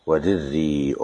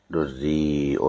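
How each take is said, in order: First: "ودري" as wa-dirrī'un, i after dal; kasra and hamza. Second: "دري" as durrī'un, u after dal; damma and hamza. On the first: Sheikh showing the student a recitation variant, "ودري" with kasra. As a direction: read "ودري" with kasra, long ī, then hamza. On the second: Sheikh showing the student a recitation variant, "دري" with damma. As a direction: read "دري" with damma, long ī, then hamza. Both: Shown as a demonstration. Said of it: "بكسر الدال وضمها مع الهمز".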